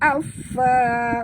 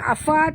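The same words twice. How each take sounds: First: The f sound is doubled and pressed. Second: The f sound is short and light. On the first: The speaker calls it right. "tapi afa" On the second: The speaker calls it wrong. "bukan afa"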